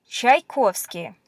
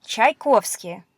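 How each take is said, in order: First: Said in the usual way. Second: Tchaikovsky said slowly, Russian style; slow careful reading. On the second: Shown as a demonstration. Teacher reading a composer's name to learners. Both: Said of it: "Famous Russian composer".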